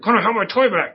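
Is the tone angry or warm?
angry. It is said in an angry tone.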